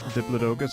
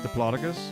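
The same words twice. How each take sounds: First: It is said the European way. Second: It is said the American way. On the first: "Europeans pronounce it" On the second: "Americans pronounce it"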